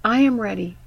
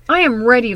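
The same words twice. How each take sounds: First: Said in the usual way. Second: I said louder with a falling line; stress on I. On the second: Acted. Preacher repeating her vow louder, stress on I. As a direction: lean into I, louder.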